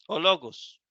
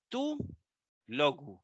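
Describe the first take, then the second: First: "o logos" spoken as a single word; run together as one word. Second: "tú" stands alone, pause, then "logo"; "tú... logo", clearly split in two; pronounced as separate words. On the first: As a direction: attach unstressed "o" to "logos", no gap. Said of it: "como si fuera una sola palabra". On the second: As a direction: stress "tú" by itself, then a lower "logo". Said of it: "no se pronuncia con la palabra". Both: Shown as a demonstration.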